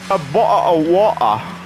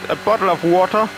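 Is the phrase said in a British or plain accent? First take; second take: British; plain. First: It is said in an exaggerated British accent. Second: It is said in a plain, neutral accent. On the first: "Sonst spreche ich wie die Briten"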